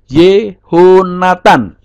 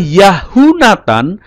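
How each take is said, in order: First: The name begins with the sounds 'Yeho'. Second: The name begins with the sounds 'Yahu'. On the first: The speaker calls it right. "berubah menjadi Yehonatan" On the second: The speaker calls it wrong. "tidak dibaca Yahunatan"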